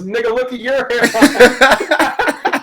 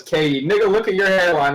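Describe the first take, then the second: First: High, loud, drawn-out mock retort; mock outraged comeback. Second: Lightly voiced retort; a mild jab, only a touch livelier; retold jab. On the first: LeBron's comeback in a meme, hammed-up loud retort. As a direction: throw it back much bigger, stretching it out. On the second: Reading a meme about an argument, lightly acted jab.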